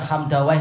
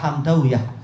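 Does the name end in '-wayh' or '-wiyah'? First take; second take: -wayh; -wiyah. First: The name ends with the sound '-wayh'. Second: The name ends with the sound '-wiyah'. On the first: This is the commonly used reading. The speaker calls it wrong. "bukan Hamdawayh" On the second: This is how the original people read it. The speaker calls it right. "tapi apa? Hamdawiyah"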